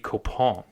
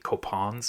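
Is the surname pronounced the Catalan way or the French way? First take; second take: French; Catalan. First: The surname is given a French pronunciation. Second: The surname is given a Catalan pronunciation. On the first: The speaker calls it wrong. "I want to say that in French" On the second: The speaker calls it right. "in the Catalan pronunciation"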